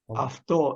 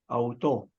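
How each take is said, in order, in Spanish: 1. La palabra empieza con el sonido 'af'. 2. La palabra empieza con el sonido 'au'. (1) "Afto es este, la forma que más o menos se asemeja al original" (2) "Auto es la forma en que se comúnmente nos han enseñado a leer"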